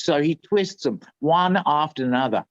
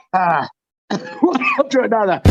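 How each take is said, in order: First: Said in the usual way. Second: High, quick repeat broken by laughter; laughing. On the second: Real, not acted. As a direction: crack up mid-line.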